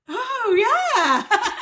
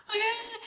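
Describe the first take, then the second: First: High, loud cry breaking into laughter; acted sudden realisation. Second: High, softer whimpered reply; mock tearful. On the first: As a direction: let it dawn on you, half crying, half laughing. Sudden realisation after crying, then laughs. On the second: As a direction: whimper it as if still crying. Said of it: "Why the hell are you crying?".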